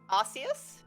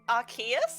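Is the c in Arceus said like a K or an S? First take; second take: S; K. First: The c is said as a soft s sound. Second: The c is said as a hard k sound. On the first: This is how the speaker always thought it was said. "I was always thought it was" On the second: This is how others on the stream said it. "why do you pronounce that with a hard K like sound"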